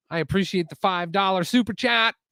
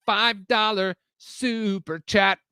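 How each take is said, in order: First: Higher, upbeat thanks at normal pace; excited thanks. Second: Slow, high announcer-like repeat; drawn-out hype. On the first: Real, not acted. Streamer thanking a viewer for a donation, excited. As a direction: thank them brightly, running straight through. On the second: Pretend. Streamer hyping a viewer's donation, drawn-out hype. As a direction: stretch out each word of "Five dollar super chat".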